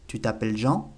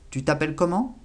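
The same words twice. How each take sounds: First: "Tu t'appelles Jean?" rising at the end on Jean; question intonation. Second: "Tu t'appelles comment?" said higher, rising on comment; question intonation. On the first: Teacher contrasts question tunes, rising on Jean. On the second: Teacher shows the rise at the sentence end, rising on comment. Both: Shown as a demonstration. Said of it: "Lo único que se cambia es la entonación".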